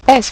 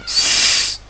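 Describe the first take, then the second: First: "S" said as its French name, "esse"; name the letter "S" clearly. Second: "S" as a long hiss, no vowel; phoneme sound. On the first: Teacher correcting the spelling, "S" as a letter name. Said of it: "S pour le son S". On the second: Teacher giving the letter's sound, "S" as sustained hiss. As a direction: hold a hissed "S" sound. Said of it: "pour le son S". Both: Shown as a demonstration.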